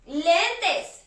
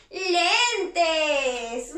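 First: Said in the usual way. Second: "Lentes" stretched over both syllables; drawn-out reveal. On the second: Shown as a demonstration. Teacher revealing "Lentes" to children, drawn-out reveal. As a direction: draw "Lentes" out long.

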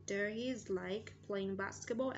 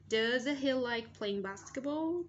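First: Said in the usual way. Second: Slow, louder question with a high rising end; model question. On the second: Shown as a demonstration. Teacher asks the class about basketball, slow raised model question. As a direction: read it out slowly, lifting BASKETBALL at the end.

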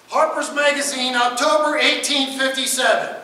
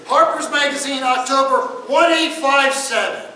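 First: Louder and slow, "Harper's Magazine" stressed; slow emphatic citation. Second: Louder and slower, each digit of "one eight five seven" separated; repeated for emphasis. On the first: Lecturer revealing the source date to the class, slow and loud. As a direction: land the date slowly for effect. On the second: Lecturer repeating the date so the class gets it, slow and loud. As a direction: spell the year out digit by digit. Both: Shown as a demonstration. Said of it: "let me repeat that again".

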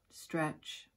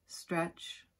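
Both takes have the same delivery.

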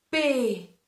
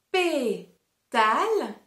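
First: Only pé of Pétale said, tale dropped; first syllable only. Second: Pétale drawn out very slowly, pé-tale; syllable by syllable. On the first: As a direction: say just pé from Pétale. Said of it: "On réessaye". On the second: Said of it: "fait disparaître la première syllabe". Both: Shown as a demonstration.

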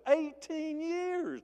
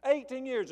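First: "Eighteen years" drawn out very slowly, pitched much higher; emphasis on eighteen years. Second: "Eighteen years" punched high on "Eighteen", at normal pace; repeated emphasis. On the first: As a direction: stretch "Eighteen years" out long and high. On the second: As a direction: hit "Eighteen" high and firm, then move on. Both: Shown as a demonstration. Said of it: "It puts emphasis on it".

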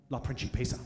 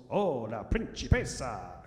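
First: La Principessa said low and haughty; proud little girl. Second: Put-on la principessa sung out slowly in an Italian accent. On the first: Retold or imitated. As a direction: claim La Principessa like a crown. Daughter proudly names her title. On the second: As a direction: roll out la principessa like an Italian waiter. Staff greeting the daughter.

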